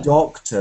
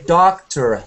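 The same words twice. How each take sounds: First: It is said in a British accent. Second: It is said in an American accent. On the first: "and I can say" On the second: "If you're American, you can say doctor"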